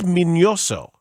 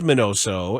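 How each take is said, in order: First: The middle consonant is an 'ny' sound. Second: The middle consonant is a plain 'n' sound. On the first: The speaker calls it right. "there's a tilde above the end. It's a, it's it is Mignoso" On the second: The speaker calls it wrong. "But everyone says Minoso"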